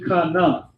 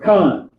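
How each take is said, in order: First: It is two syllables with the full second sound. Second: It is one short syllable without a final vowel. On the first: "if we took that that plural connector out and we put singular connectors down, it would be kana" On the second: "When it's plurally connected, you're going to take the um, second ah, the second sound"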